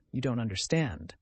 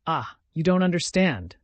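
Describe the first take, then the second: First: Despairing murmur. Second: Louder, pressing cry of despair; despairing outburst. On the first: Sonia repeats it to him, drained and falling. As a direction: let the repeat sink down hopelessly. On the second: Sonia despairs that he cannot understand, rising outburst. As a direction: push it out in despair. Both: A narrator's reading. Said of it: "as though in despair".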